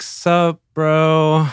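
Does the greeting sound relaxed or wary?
wary. It sounds like a wary, tense greeting. Feeling threatened or cornered. "it can be an apprehension"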